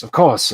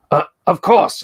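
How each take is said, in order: First: Said in the usual way. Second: Polite librarian voice. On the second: Acted. NPC librarian replies.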